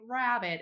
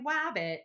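First: The word begins with a clear R sound. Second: The word begins with a W sound. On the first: The speaker calls it right. "they don't say rabbit" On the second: The speaker calls it wrong. "they're saying wabbit for rabbit"

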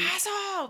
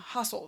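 First: It is shouted loudly. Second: It is said quietly.

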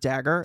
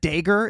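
First: It is said with a standard accent. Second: It is said with a Midwest accent.

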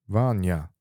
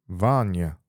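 Both takes have the same delivery.

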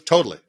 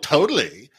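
First: It is said plainly, without a Valley Girl style. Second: It is said in an exaggerated Valley Girl style. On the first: "because of the intonation, it was different" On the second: "it wasn't the Valley Girl totally"

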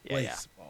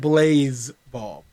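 First: The first part has an s sound, like base. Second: The first part has a z sound, like blaze. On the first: The speaker calls it right. "So it's baseball, but with an L" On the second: The speaker calls it wrong. "Not Blaze Ball"

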